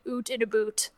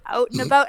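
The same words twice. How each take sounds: First: "oot in a boot", every ou as a long oo; mock Canadian "oot". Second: "Out and about" with the Canadian ou in "about". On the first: A bar clerk mishears Canadians as "oot in a boot". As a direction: turn "out" into "oot" and "about" into "a boot". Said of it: "sounds like we're saying". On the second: Shown as a demonstration. Asked to say it, Canadians give their own vowels. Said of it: "say out and about".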